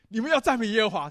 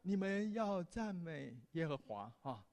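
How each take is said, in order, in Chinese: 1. 这句话是带着活泼、热情的语气说的。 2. 这句话是带着叹气、不情愿的语气说的。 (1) "你一定会觉得，哎" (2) "你绝对不会说，哎呀"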